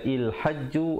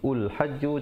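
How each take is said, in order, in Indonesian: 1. Vokal pertama adalah bunyi i. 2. Vokal pertama adalah bunyi u. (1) "Jangan kita baca il hajju" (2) "ataupun ul hajju"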